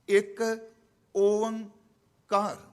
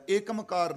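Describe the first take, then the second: First: It is split into separate parts. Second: It is run together as one word. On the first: The speaker calls it right. "ਤਿੰਨ ਹਿੱਸਿਆਂ 'ਚ ਪਾਠ ਹੁੰਦਾ" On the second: The speaker calls it wrong. "ਏਕਮਕਾਰ ਨਹੀਂ"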